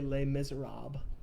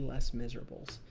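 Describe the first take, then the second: First: The title is pronounced the French way. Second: The title is pronounced the anglicized way. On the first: This is the pronunciation others consider correct. "I will never say" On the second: This is the pronunciation the speaker insists on using. "It will always be"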